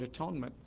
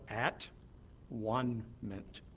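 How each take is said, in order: First: It is said as one ordinary word. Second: It is split into 'at', 'one', 'ment'. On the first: "the word atonement" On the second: "a re-pronunciation of the word atonement"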